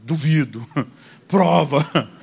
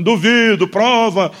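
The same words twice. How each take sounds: First: Inner mock dare. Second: "Duvido, prova" called out louder and higher; shouted dare. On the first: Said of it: "Só faltou eu dentro de mim dizer". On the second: Retold or imitated. Preacher in the vision yelling at the praying man, loud and higher. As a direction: shout the dare at him across the church. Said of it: "O eu da visão gritando pra ele".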